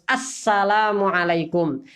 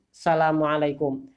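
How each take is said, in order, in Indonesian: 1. Salam ini dimulai dengan bunyi 'as' yang lengkap. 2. Salam ini dimulai tanpa bunyi 'as'. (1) "Harus menggunakan alif lam ta'rif. Jadi harus assalamualaikum" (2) "dia hanya mengatakan assalamualaikum, ... tidak sah salamnya"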